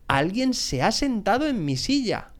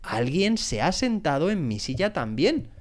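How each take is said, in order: First: High-pitched, mildly indignant papa bear; mock growl. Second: Lightly voiced mama bear, rising at the end. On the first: Papa bear finding his chair used, mildly growled. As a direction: grumble it lightly, pitched high, falling at the end. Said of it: "gruñó el oso papá". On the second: Mama bear finding her chair used too, mildly voiced. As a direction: say it mildly, lifting the last word. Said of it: "dijo la osa mamá". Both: A narrator's reading.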